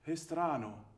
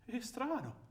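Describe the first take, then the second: First: It is said slowly, sounding puzzled. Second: It is said quickly, almost like a laugh.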